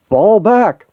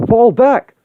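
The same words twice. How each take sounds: First: High, loud command to retreat; shouted order. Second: Higher, louder insistent repeat; repeated shouted order. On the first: Cap orders the team back from the robots, shouting. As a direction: bark the order over the chaos. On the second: Cap repeats his order to a team that ignores him, louder. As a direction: snap it again because nobody listened. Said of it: "I said". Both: Acted.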